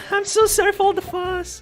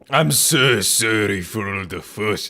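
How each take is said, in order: First: The voice is pitched very high. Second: The voice is pitched lower.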